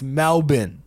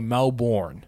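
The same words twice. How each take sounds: First: Melbourne is said the Australian way. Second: Melbourne is said the American way.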